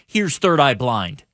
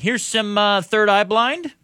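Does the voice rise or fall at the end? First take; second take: fall; rise. First: It ends falling, like a statement. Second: It ends rising, like a question.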